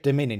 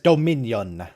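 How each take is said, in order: First: It is said casually with ordinary mouth movement. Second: It is said with exaggerated, wide-open precise enunciation. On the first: "He doesn't say dominion" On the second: "he says dominion"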